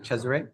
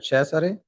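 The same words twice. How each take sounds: First: The name is said with English pronunciation. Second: The name is said with Italian pronunciation. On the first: "I'm fine with uh, this pronunciation, Ches, and then array" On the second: "That's how you uh, pronounce my name in Italian"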